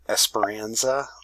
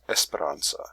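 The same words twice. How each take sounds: First: The name is said with an English accent. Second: The name is said with a Spanish accent. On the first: "when she hears her name in English" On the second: "in Spanish"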